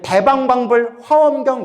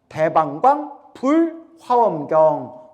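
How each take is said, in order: First: The only break comes after the fourth syllable. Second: There is a break after the third syllable. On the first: This is the common everyday way of saying it. The speaker calls it wrong. "우리 대방광불 화엄경 이러죠?" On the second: This is the original, correct way of saying it. The speaker calls it right. "원래는 대방광 띄고 불 띄고 화엄경. 원래는 이렇게 발음해야 정확하대요"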